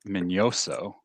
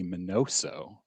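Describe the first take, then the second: First: The middle consonant is an ny sound. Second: The middle consonant is a plain n sound. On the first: This is how the name is really spelled, with the ñ. The speaker calls it right. "Shouldn't it be Min- Minoso?" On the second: This is the common way people say the name. The speaker calls it wrong. "everybody calls him Minnie Minoso"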